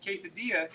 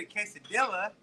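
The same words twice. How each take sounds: First: "quesadilla" with a silent double L, kay-suh-DEE-uh; no L sound in "quesadilla", stressed on DEE; Spanish pronunciation. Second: "quesadilla" with the L sounded, kay-suh-DILL-uh; hard English L in "quesadilla", as in DILL-uh; anglicized mispronunciation. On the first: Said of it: "I said quesadilla". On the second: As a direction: say "quesadilla" to rhyme with vanilla. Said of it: "I didn't say". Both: Shown as a demonstration.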